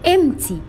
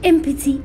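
First: The p sound is silent. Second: The p sound is pronounced. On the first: The speaker calls it right. "البي silent، يعني بنقول empty" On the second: The speaker calls it wrong. "مش empty"

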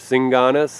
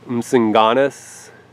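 First: The word begins with an S sound. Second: The word begins with a pronounced M sound.

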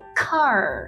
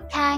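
First: The word ends with a curled r sound. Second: The word ends without an r sound. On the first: The speaker calls it right. "mà là car" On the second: The speaker calls it wrong. "Chúng ta không đọc là ca nhé"

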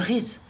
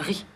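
First: The word ends with an audible z sound. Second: The word ends on the vowel, no final z. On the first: The speaker calls it wrong. "On dit pas le riz" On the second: The speaker calls it right. "ça se prononce pas"

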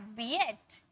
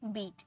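First: It is split into two syllables, bee-et. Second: It is said as one syllable with a long ee. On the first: The speaker calls it wrong. "ऐसे थोड़ी बोलते हैं बी एट" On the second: The speaker calls it right. "ई में पढ़ते हैं"

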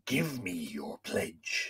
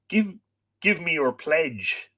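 First: The voice is gruff and gravelly, like an old man. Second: The voice is lighter and not gruff or gravelly. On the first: The speaker calls it wrong. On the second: The speaker calls it right.

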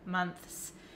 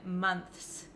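First: The th sound is pronounced before the s. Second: The same.

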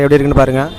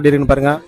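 First: Background noise is somewhat reduced behind the voice. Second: Background noise is barely heard behind the voice. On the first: "இது first level of noise கேன்சலேஷனு" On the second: "3rd level of noise cancellation"

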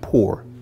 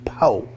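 First: The word ends with a full R sound. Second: The word ends without the R sound. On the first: "not poor" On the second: "I couldn't afford the other O and R"

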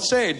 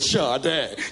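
First: The name is read just as it is spelled. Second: The name is said unlike its spelling, 'shah-day'. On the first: "my name is spelled Sade" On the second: "but I pronounce it Sade"

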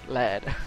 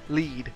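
First: The vowel is a short 'e' sound. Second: The vowel is a long 'ee' sound. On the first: The speaker calls it right. "when I should have said lad" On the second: The speaker calls it wrong. "I used to say lead"

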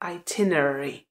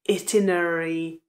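First: The stress is on the second syllable. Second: The stress is on the first syllable. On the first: The speaker calls it right. "přízvuk je na druhé slabice" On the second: The speaker calls it wrong. "ta výslovnost není itinerary"

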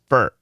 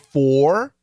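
First: The word has a reduced schwa vowel. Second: The word has a full, clear vowel. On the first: "he says fur. It's a schwa R" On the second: "Does he say for?"

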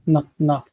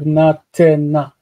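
First: No extra vowel is sounded in the middle. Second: An extra vowel is sounded in the middle. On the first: The speaker calls it right. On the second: The speaker calls it wrong. "Instead of natena"

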